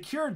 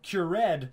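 First: The name is pronounced in a plain, ordinary way. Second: The name is pronounced in a fancy, refined way.

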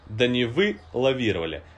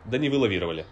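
First: There is a pause after "вы" within the word. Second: The word is said smoothly without any pause. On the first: "мы разделяем последнее слово «да не вы лавировали». Эта пауза должна постепенно уменьшаться" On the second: "и потом исчезнуть совсем"

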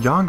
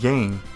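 First: The name does not rhyme with fang. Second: The name rhymes with fang. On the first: This is the original pronunciation. "I call him Yang for once, the real way" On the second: This is an English-style pronunciation. "the word Yang rhymes with, like, saying, fang"

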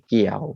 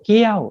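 First: The pitch is low. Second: The pitch goes up high. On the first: "ไม่เอกเกี่ยวเสียงต่ำลง" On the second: "ไม่โทเกี้ยวเสียงสูงขึ้น"

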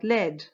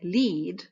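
First: The vowel is short, rhyming with bed. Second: The vowel is long, rhyming with bead. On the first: "but not lead" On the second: "bead sounds like lead"

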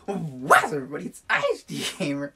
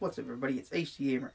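First: It is said with much more energy and punch. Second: It is said in a calm, low-energy way.

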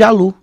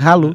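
First: The name begins directly with a vowel sound. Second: The name begins with a breathy H sound. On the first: This is how people in Brazil say it. The speaker calls it wrong. "aqui no Brasil chamam de Alu" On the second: This is the name's real pronunciation. The speaker calls it right. "esse H, ele é Halu"

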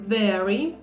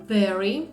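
No difference in how they are said.

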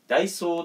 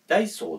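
First: The pitch stays high toward the end of the word. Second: The pitch drops toward the end of the word. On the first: This is the way Hokkaido people rarely say it. "ダイソーって何々みたいな、そういう言い方があまりないような気がする" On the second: This is the Hokkaido way of saying it. "北海道人だからね、ダイソーって言っちゃうんですよ。だから北海道の人って後ろ下げるイントネーションが多くて"

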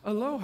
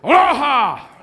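First: It is said calmly and plainly. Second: It is said with intense, happy energy.

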